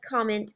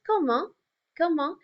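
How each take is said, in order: First: "comment" as the English word, KOM-ent; English pronunciation. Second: "comment" in French, koh-MAHN with a silent t; French pronunciation. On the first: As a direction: sound out both the n and the t in "comment". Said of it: "it looks like comment in English". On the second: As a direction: end "comment" on a nasal vowel, no t sounded. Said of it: "frequently have some silent letters in French". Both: Shown as a demonstration.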